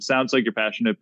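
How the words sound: It is said in a thick Italian accent.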